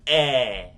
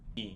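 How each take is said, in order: First: The vowel is said with an open sound. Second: The vowel is said with a closed sound. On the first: The speaker calls it right. "You would say é because it's accent above the letter E" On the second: The speaker calls it wrong. "You're not gonna say E or E"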